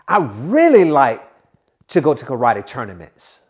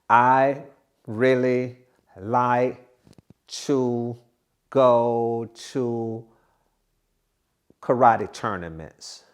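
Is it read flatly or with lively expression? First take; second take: lively; flatly. First: It is read with lively expression, steadily. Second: It is read flatly, at an uneven rate.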